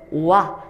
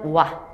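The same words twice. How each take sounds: First: The syllable is drawn out very slowly. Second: The syllable is said quickly at normal speed.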